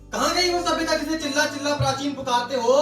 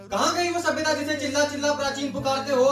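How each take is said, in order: No difference in how they are said.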